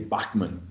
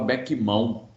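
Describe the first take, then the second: First: The name is said with a German-like sound. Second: The name ends in a nasal 'ão' sound. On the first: This is the original pronunciation. "na pronúncia correta seria Bachmann" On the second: This is how it used to be said. "antigamente a gente falava Beckmão"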